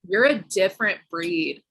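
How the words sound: It is said in a disparaging, critical tone. The speaker means it as a put-down.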